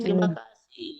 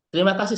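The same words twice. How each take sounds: First: The vowel is held for four beats. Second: It is said at normal, quick length.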